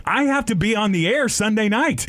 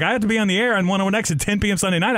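First: High, urgent protest; sudden worry about missing work; alarmed protest. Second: High, fast, rushed protest piling on detail; panicked rush. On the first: Stuck in the drunk tank, high alarmed protest. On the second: Telling cellmate about his radio shift, fast panicked rush. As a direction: blurt it all out in a rush. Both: Retold or imitated. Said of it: "I was like".

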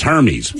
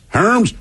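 First: Hermes said as "HER-meez"; two syllables in Hermes, H sounded: HER-meez; spelling pronunciation. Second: Hermes as one high syllable, "hurmz"; mispronounced brand name. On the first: Host teasing over the brand name, Hermes as HER-meez. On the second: Host teasing over the brand name, Hermes as high hurmz. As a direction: say Hermes like "herms", questioning. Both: Shown as a demonstration. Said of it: "I think it's Hermes".

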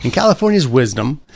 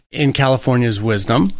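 First: Slightly raised, pointed irony; sarcastic. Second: Dry, mocking praise; sarcastic. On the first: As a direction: lean into the mock praise. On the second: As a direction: say it with an ironic edge. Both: Real, not acted. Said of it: "that's sarcasm".

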